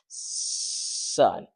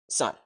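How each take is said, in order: First: The first sound is stretched out long. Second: The word is held back by throat tension.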